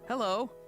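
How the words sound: It sounds happy.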